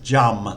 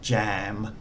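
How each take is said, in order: First: The vowel sounds like um. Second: The vowel sounds like am. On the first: The speaker calls it right. "It's jum" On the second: The speaker calls it wrong. "not jam"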